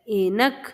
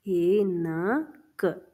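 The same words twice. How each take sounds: First: Said in the usual way. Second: Very slow, syllables stretched; ऐनक spoken slowly, ऐ-न-क; slow dictation. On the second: Shown as a demonstration. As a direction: draw ऐनक out for the children to write.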